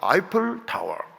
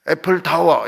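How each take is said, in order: First: The first vowel sounds like 'eye'. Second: The first vowel sounds like 'a' in apple. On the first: The speaker calls it right. "우리는 항상 발음을 정확하게 해야 됩니다" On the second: The speaker calls it wrong. "이렇게 하지 말고"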